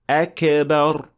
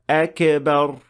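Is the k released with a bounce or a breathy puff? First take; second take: bounce; bounce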